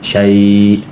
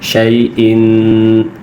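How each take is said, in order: First: The word stops short with no 'in' ending. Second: The word ends with a nasal 'in' sound. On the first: The reader stops on this word. "वक्फ़न" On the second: The reader continues without stopping. "तनवीन है तो गुन्ना होगा"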